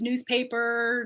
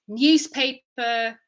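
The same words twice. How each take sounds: First: There is no y sound after the n. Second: A y sound follows the n. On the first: "whatever in North American English" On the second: "British English is going to say"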